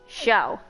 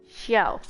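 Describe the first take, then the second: The two takes are said the same way.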